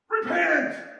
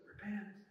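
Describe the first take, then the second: First: It is said harshly, like a fiery preacher. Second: It is said gently and invitingly.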